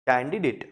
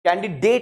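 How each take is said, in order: First: The last syllable sounds like a soft 'dit'. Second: The last syllable sounds like 'date'. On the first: The speaker calls it right. "डिट आता है last में, soft ending" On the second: The speaker calls it wrong. "कैंडिडेट नहीं होता, डेट नहीं है"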